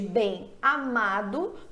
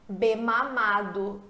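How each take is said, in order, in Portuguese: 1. O m só nasaliza o e de bem. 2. O m se liga ao a como em ma. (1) "você não fala M... Você fala bem, você estende o som do E" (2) "a junção do M com esse A vai mudar a questão fonética... Que palavra horrorosa"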